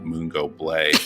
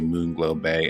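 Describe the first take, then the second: First: The L sound is moved into the second word. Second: The L sound is in the first word. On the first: The speaker calls it wrong. "and not" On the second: The speaker calls it right. "make sure I say Moonglow Bay"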